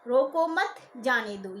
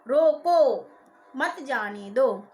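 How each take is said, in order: First: The stress falls on the word मत. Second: The stress falls on the word रोको. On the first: Do not stop the person; let them go. "यदि हमने मत पर बलाघात कर दिया" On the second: Stop the person; do not let them go. "यदि हमने रोको पर बलाघात कर दिया"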